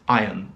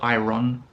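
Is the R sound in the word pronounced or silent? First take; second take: silent; pronounced. First: The R sound is silent. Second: The R sound is clearly pronounced. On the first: The speaker calls it right. "It's iron, The R is silent" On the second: The speaker calls it wrong. "not iron"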